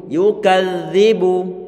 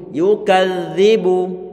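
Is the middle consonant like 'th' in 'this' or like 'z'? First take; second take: th; th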